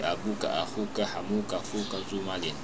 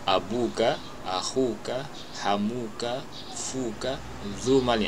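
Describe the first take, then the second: First: The list of words is said quickly. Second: The list of words is said slowly.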